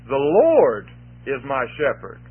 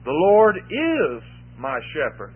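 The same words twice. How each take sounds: First: The word 'Lord' carries the main stress. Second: The word 'is' carries the main stress. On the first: It is the Lord, not anyone else, who shepherds. "Because it's the Lord who's my shepherd" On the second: He is the shepherd right now. "He is my shepherd now"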